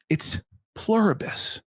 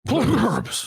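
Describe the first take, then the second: First: The word is said clearly and carefully. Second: The word is mumbled like a sneeze. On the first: The speaker calls it right. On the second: The speaker calls it wrong. "it's almost like he sneezed"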